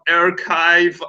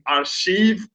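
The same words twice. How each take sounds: First: The word is said the usual English way. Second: The word is said the way French would say it. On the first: The speaker calls it right. "instead of archive" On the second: The speaker calls it wrong. "I was saying archive, that's like French"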